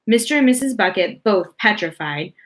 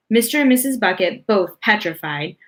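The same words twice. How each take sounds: The two takes are said the same way.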